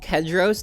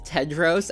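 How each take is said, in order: First: The name begins with a K sound. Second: The name begins with a T sound. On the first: The speaker calls it wrong. "not Kedros, as I say throughout the review" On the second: The speaker calls it right. "The character's name is Tedros"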